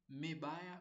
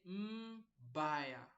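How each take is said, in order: First: An e vowel is heard after the m. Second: No vowel is heard after the m. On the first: The speaker calls it wrong. "or mebaya" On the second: The speaker calls it right. "there is no vowel here"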